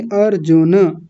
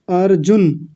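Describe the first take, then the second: First: अर्जुन as AR-JU-NA with a vowel at the end; correct full NA. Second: अर्जुन cut short as AR-JUN; wrong half N. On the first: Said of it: "अर्जुन नहीं". (अर्जुन का 'न' पूरा, अर्-जु-न) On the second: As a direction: end अर्जुन on a closed N, no vowel. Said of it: "उन्होंने न को आधा कर दिया था". (अर्जुन का 'न' आधा, अर्-जुन्) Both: Shown as a demonstration.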